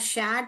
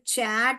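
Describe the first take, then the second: First: The word begins with a sh sound. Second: The word begins with a ch sound. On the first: "शैट बोलते हैं" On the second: "चैट बोलते हैं"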